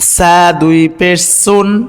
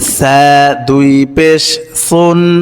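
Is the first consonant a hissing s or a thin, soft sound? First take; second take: hissing s; thin. First: The first consonant is a hissing s sound. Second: The first consonant is a thin, soft sound. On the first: The letter turns into a different letter and the meaning changes. The speaker calls it wrong. "যদি এইভাবে বলি তাহলে এ সা সিন হয়ে যাবে" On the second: The letter keeps its own sound and meaning. The speaker calls it right. "সঠিক উচ্চারণ হচ্ছে"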